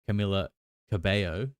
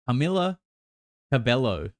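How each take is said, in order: First: The name is said in a more Spanish way. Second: The name is said in an anglicized way. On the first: The speaker calls it right. "I think it's Camila Cabello" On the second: The speaker calls it wrong. "I don't think that's how you say it"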